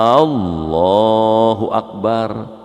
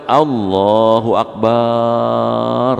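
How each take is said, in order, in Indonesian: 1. Vokal pembuka dari Allahu dipanjangkan. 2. Suku kata terakhir dari Akbar dipanjangkan. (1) "alifnya dipanjangin" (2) "Baknya dipanjangin"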